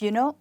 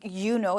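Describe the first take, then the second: First: The first word is reduced to a quick y. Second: Both words are said fully and clearly. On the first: The speaker calls it right. "it's just a y actually and no you" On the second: The speaker calls it wrong. "there's no like you know"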